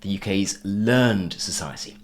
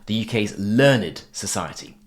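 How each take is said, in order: First: Learned is said in its verb pronunciation. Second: Learned is said in its adjective pronunciation. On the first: "as opposed to" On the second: "I said the U K's learned society"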